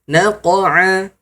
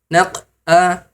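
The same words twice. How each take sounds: First: The bounce after the q is fully released. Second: The bounce after the q is held back. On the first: The speaker calls it right. "Maka disempurnakan" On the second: The speaker calls it wrong. "naq'a tidak ter, tidak sempurna pantulannya"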